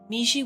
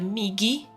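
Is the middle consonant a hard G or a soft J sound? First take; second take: soft J; hard G. First: The middle consonant is a soft J sound. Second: The middle consonant is a hard G sound. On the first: The speaker calls it wrong. "Miji with a J" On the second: The speaker calls it right. "so with like a hard uh, G"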